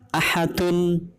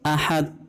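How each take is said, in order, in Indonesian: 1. Kata ini berakhir dengan suku kata vokal penuh. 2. Kata ini berhenti pada konsonan yang memantul.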